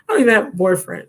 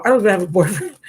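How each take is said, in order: First: Quicker, laughing through the repeat. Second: Said in the usual way. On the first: Real, not acted. Repeating it to the driver, laughing. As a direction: laugh it off as you say it again. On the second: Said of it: "repeats it laughing".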